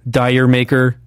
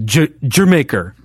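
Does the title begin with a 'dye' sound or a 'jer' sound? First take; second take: dye; jer. First: It begins with a 'dye' sound, like 'dyer'. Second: It begins with a 'jer' sound, like 'Jamaica'. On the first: The speaker calls it wrong. "people don't pronounce right" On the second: The speaker calls it right. "I think is how you're supposed to say it"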